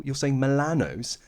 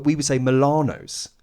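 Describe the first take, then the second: First: Milano's with a short flat A, as in "man"; Irish pronunciation quoted. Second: Milano's with a long open AH, "mih-LAH-nohs"; English pronunciation. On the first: Client mimics the Irish voice actor, "Milano's" with short A. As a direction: say "Milano's" Irish-style, "mih-LAN-ohs". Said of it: "how would you pronounce Milano's". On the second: English client correcting the Irish actor, "Milano's" with long AH. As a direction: stretch the middle of "Milano's" to LAH, English-style. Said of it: "but we would say Milano's". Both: Retold or imitated.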